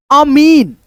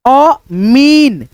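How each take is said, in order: First: Said in the usual way. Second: अमीन with the मी vowel drawn out very long; stretched long ee. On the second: Shown as a demonstration. Teacher dictating अमीन to pupils, long ee stretched out. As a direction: say अमीन slowly, holding the long ee in मी. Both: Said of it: "बड़ी की मात्रा का उच्चारण खींच करके".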